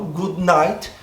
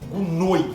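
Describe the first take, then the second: First: The vowel in 'night' sounds like 'eye'. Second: The vowel in 'night' sounds like 'oy'. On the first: This is the speaker's own everyday way. "eu falo good night e eles entendem" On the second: This is how people in Sydney say it. "Sydney é good noi"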